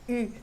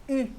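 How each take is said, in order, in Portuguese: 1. A vogal é um som francês arredondado e anterior. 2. A vogal é um som francês arredondado e anterior.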